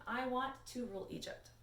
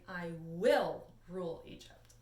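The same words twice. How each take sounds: First: WANT stressed, falling at the end. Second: WILL stressed, slow and a bit louder. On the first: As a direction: lean on the word want, then fall. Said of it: "we are going to change this into". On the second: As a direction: hit the word will, say it slowly. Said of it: "change this into her saying". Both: Shown as a demonstration.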